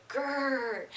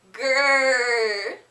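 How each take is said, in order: First: Soft playful bear growl; growl demo. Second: Loud playful bear growl; louder growl. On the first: Shown as a demonstration. Teacher showing kids at home the growl, soft playful growl. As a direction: show the kids a gentle growl. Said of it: "I want you to say". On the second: Pretend. Answering for the kids at home, loud playful growl. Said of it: "A little bit louder".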